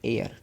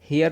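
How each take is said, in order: First: The word starts with a vowel sound. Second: The word starts with an h sound. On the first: The speaker calls it right. "इसको एयर पढ़ेंगे।" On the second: The speaker calls it wrong. "इसको हेयर नहीं पढ़ेंगे"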